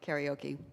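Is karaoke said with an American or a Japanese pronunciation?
American. It is said with an American pronunciation. "U S people say karaoke"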